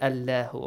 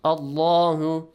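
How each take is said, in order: First: Allahu with a light, thin L, said low; mispronounced Allahu. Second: Allahu with a heavy, dark L and long open "aa"; correct Allahu. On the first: Teacher showing students the mistake to avoid, wrong Allahu. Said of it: "not Allahu, okay?". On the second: Teacher modelling the right reading for students, correct Allahu. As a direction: draw out "Allahu" slowly with a full, rounded L. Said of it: "not Allahu, okay? Allahu". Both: Shown as a demonstration.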